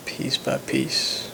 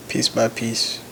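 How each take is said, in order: First: Slow breathy whisper of the phrase. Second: Said in the usual way. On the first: Shown as a demonstration. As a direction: whisper it, drawn out. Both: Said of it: "repeats phrase whispered".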